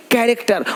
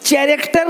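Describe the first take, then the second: First: कैरेक्टर with a hard k at the start, falling; correct pronunciation. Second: कैरेक्टर misread with ch at the start, "chai-rek-tar", pitched higher; wrong pronunciation. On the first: Teacher correcting the reading of character, correct pronunciation. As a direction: say कैरेक्टर as "KAI-rek-tar", k not ch. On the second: Teacher showing learners the misreading of character, wrong pronunciation. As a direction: say कैरेक्टर wrongly as "CHA-racter". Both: Shown as a demonstration. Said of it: "कैरेक्टर नहीं".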